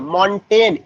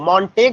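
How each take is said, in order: First: The name ends with an N sound. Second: The name ends with a hard G sound. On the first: The speaker calls it right. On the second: The speaker calls it wrong. "मॉन्टेग नहीं है"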